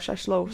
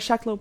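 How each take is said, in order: First: The second syllable starts with an SH sound. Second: The second syllable starts with a K sound. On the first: The speaker calls it right. "I pronounced it properly" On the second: The speaker calls it wrong. "there is no K in it"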